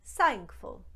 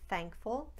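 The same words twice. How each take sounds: First: The word begins with an s sound. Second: The word begins with a th sound. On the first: "you might hear thankful" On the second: "instead of thankful"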